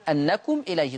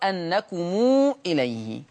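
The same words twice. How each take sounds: First: The final mim is closed without a vowel. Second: The final mim carries a long vowel.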